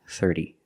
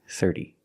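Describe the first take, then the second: The two takes are said the same way.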